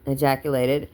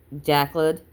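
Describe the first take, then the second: First: "Ejaculated." said in full as "ee-JACK-you-lay-ted"; "Ejaculated." every syllable careful and complete; corrected word. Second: "ejaculated." clipped to "jaculd", first syllable dropped and rising; "ejaculated." swallowed short as "jackled"; misread word. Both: A narrator's reading.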